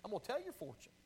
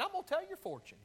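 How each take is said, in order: First: Fortune teller. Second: High, fast mock fortune teller line; "gonna" lifted high like a carnival seer. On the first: Pretend. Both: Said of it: "I'm gonna be a fortune teller".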